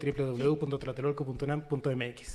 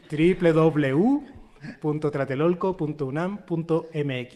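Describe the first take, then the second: First: It is said at a quick pace. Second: It is said at a slower pace.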